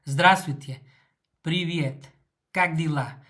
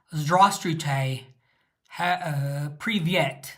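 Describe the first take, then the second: First: "Здравствуйте" said crisply, the Russian way, with a rolled R; "Здравствуйте, привет, как дела" in smooth, natural Russian; native Russian pronunciation. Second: Mock British accent, slow and stiff on "Здравствуйте"; British accent in Russian. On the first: Shown as a demonstration. Showing viewers how Russians really say it, in natural Russian. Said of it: "They can't say just".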